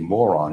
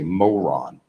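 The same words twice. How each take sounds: First: It is said in a plain, ordinary way. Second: It is said in a mocking, southern-sounding way. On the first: "you don't say moron" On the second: "you say moron. I don't know, is that a southern thing or something?"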